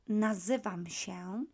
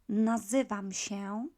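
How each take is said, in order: The two takes are said the same way.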